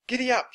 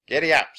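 First: Put-on very high, louder girl's call; Annie. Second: Louder, higher cowboy call to the horse; Slim. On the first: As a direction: pitch it right up for the girl rider. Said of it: "said Annie". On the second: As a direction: call out a hearty giddy-up. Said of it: "said Slim". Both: A narrator's reading.

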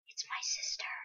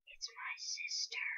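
First: Soft unvoiced whisper. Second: Slow, soft unvoiced whisper. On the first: Player spotting the girl panda, secret whisper. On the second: Player spotting the girl panda, slow secret whisper. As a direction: breathe it out slowly as a secret.

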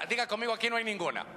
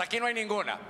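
First: Said in the usual way. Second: Aquí no hay ninguna said with more force, pressing hay; a firmer call for the crowd to repeat. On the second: Shown as a demonstration. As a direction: push it out, stronger, leading the congregation. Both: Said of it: "No, con más fuerza".

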